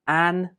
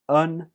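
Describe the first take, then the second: First: The word has a full, strong vowel. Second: The word has a weak uh vowel.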